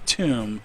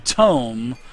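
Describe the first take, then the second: First: The vowel sounds like 'oo', as in 'room'. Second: The vowel sounds like 'oh', as in 'home'. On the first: The speaker calls it wrong. "I was calling it a tomb" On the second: The speaker calls it right. "I've been working on my tome"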